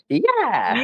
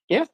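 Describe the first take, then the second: First: It is said with loud, eager enthusiasm. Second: It is said flatly, without enthusiasm.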